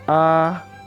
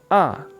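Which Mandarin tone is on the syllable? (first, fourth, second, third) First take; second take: first; fourth. First: The pitch stays high and level. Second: The pitch drops sharply from high to low. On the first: "Nada satu, iseng" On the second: "Nada empat, seseng"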